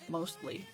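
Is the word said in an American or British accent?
American. The word is said in a plain American accent.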